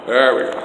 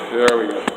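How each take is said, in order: Both takes have the same delivery.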